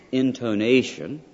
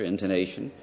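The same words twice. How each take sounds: First: "Intonation" slow, louder, syllables stressed; emphatic intonation. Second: Said in the usual way. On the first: Shown as a demonstration. Lecturer showing emphasis on one syllable, "Intonation" said slowly and emphatically. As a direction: stretch out "Intonation" with heavy emphasis. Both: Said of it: "putting the emphasis on one syllable".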